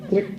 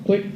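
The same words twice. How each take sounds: The two takes are said the same way.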